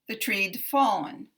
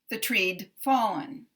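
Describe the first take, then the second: Both takes have the same delivery.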